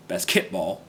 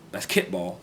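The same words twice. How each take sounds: First: Basketball with the stress moved; wrong stress. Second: Said in the usual way. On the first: Shown as a demonstration. Learner showing basketball wrongly stressed. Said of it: "that's with the wrong stress pattern". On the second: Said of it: "hear someone say basketball".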